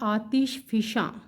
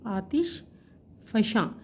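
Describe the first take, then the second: First: The second word has an 'i' after 'f'. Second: The second word has an 'a' after 'f'. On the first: The speaker calls it right. "फ़े के नीचे ज़ेर है" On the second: The speaker calls it wrong. "फ़े के ऊपर हम इस पे ज़बर डालते हैं जो कि दुरुस्त नहीं है"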